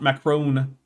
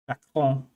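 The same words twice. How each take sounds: First: The name is said with English pronunciation. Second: The name is said with French pronunciation. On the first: The speaker calls it wrong. "not Macron" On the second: The speaker calls it right. "if you're doing the French"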